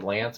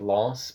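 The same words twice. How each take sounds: First: It is said like the English name. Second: It is said with a French pronunciation. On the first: The speaker calls it wrong. "he kind of says like the name Lance" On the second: The speaker calls it right. "but it's kind of like more like Lance"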